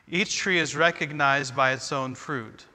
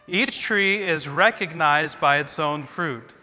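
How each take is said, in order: First: It is read calmly, without extra energy. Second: It is read with more energy and excitement.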